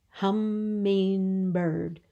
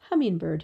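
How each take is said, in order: First: "Hummingbird" very slow, in three even beats; syllable by syllable. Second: Said in the usual way. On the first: Shown as a demonstration. Teacher showing three syllables, "Hummingbird" slowly stretched in three. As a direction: draw out each syllable of "Hummingbird". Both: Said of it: "Three syllables".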